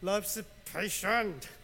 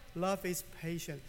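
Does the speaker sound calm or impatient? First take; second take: impatient; calm. First: It is said in a frustrated, impatient tone. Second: It is said in a calm, gentle tone. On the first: The words are said while losing patience. "Sometimes I sound like love is patient" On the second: The words are meant as encouragement. "I don't sound like love is patient"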